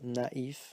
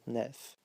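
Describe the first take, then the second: First: The two vowels are pronounced as separate sounds. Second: The two vowels merge into one sound. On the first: The speaker calls it right. "remember uh, to pronounce them separately" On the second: The speaker calls it wrong. "and not"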